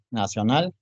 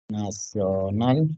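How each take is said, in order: First: Said in the usual way. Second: NACIONAL stretched syllable by syllable; slow dictation. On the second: Real, not acted. Teacher writing Nacional for students, slow dictation. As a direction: draw out Nacional while writing it.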